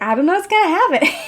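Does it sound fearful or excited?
excited. It sounds curious and excited.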